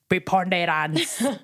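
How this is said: It is said in a Kenyan accent. "If it's a Kenyan accent, it would be preponderance"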